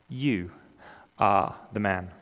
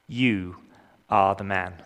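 No difference in how they are said.

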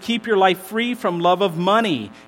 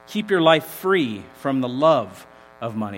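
First: The sentence is read at a normal pace. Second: The sentence is read slowly and deliberately.

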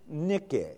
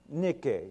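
Both takes have the same delivery.

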